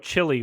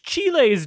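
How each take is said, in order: First: The word has an American English pronunciation. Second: The word has a Spanish-style pronunciation. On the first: It is how he talks to an audience. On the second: It is how he talks to his wife. "which chiles do you want?"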